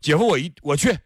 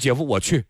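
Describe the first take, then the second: First: It is said at a somewhat higher pitch. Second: It is said at a low, normal pitch.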